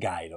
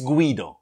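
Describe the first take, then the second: First: The name is said the English-speaking way. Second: The name is said the native Italian way. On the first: The speaker calls it wrong. "a lot of English people, English-speaking people, pronounce it Guido" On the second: The speaker calls it right. "No, it's Guido"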